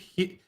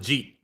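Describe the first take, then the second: First: The word begins with an H sound. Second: The word begins with a J sound. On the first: "a Spanish pronunciation. ... The J is like an H sound" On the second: "let's call it a Jeet"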